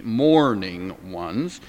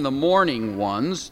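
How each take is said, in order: First: "mourning ones" said slowly and lower, each sound careful; 1 slow careful spelling-out. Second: Said in the usual way. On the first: Shown as a demonstration. Teacher shows how "mourning" sounds, slow and careful. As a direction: drag out "mourning" so the class hears every sound. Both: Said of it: "this is M O U R N I N G".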